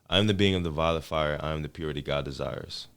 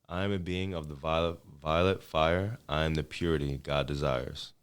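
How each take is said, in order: First: It is said at a normal pace. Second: It is said slowly.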